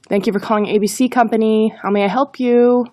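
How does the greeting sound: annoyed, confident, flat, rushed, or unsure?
annoyed. It sounds grumpy and annoyed. "If we answer the call in a bad mood, it's sure to show"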